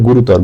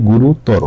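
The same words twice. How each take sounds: First: গুরুতর cut off at the r; dropped final vowel. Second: গুরুতর with a full "ro" at the end; final o sound. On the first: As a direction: say গুরুতর without a closing o. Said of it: "এটা কিন্তু ভুল". (গুরুতর-এর শেষ র হসন্ত) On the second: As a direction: finish গুরুতর on an o vowel. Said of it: "বলতে হবে কি". (গুরুতর-এর শেষে স্পষ্ট "রো") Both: Shown as a demonstration.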